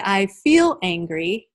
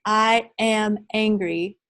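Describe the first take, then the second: First: "I feel angry" slow, with a rise on "feel"; stress on FEEL. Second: "I am angry" said slowly, each word weighed; the wrong way, slowly. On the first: Teacher showing workshop the better phrasing, "feel" stressed. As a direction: lean into "feel" as the better choice. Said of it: "But if you say". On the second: Teacher showing workshop the phrasing to avoid, slow. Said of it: "So if you say". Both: Shown as a demonstration.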